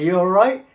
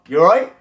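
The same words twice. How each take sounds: First: The tone sounds eager and approval-seeking. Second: The tone sounds aggressive and confrontational. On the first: "approval seeking" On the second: "A little bit aggressive for everyday right life"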